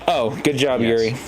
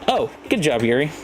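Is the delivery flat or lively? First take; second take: flat; lively. First: The line is said in a flat monotone. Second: The line is said with lively, varied pitch. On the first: The speaker calls it right. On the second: The speaker calls it wrong.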